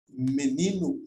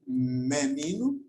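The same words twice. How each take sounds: First: The first vowel has a closed quality. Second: The first vowel has an open quality. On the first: "timbre fechado" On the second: "timbre aberto"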